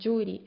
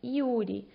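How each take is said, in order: First: The Y is said as a consonant sound. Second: The Y is said as an ee vowel sound. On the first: The speaker calls it wrong. "Não é como no espanhol, vocês não vão ler Yuri" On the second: The speaker calls it right. "a letra Y sempre vai ter o som de I"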